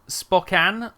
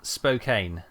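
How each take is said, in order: First: SPOKANE as "spock-ANN", short o, ending like "can"; trying a pronunciation. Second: SPOKANE as "spo-KANE", rhyming with "cane"; long o, long a: say Spokane as "spoh-KAYN"; alternative pronunciation. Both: Shown as a demonstration. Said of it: "I don't know how to pronounce this".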